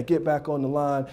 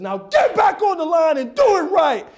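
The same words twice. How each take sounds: First: Said in the usual way. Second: Loud, high barked order; angry coach bellowing a command; yelling coach. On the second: Acted. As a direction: shout the player back into line. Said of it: "So when a coach yells".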